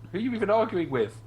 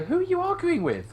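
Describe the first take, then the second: First: Said in the usual way. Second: Much higher, louder incredulous squeak; a high, loud retort that sends up the question; mock exasperated ask. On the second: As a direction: fling it back at them in disbelief. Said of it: "and you kinda go".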